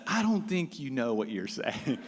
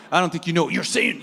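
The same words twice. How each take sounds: First: Said in the usual way. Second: Fast, louder sassy parroting back; mocking echo. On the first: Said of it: "he says". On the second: Echoing the local man's words back at him, mocking and fast. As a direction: throw his words right back at him, quicker. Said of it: "And I'm like".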